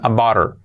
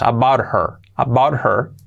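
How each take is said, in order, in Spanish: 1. El sonido h al inicio de her se omite. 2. El sonido h al inicio de her se pronuncia. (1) "lo normal es que digan about her" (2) "Podemos hacer la H si queremos"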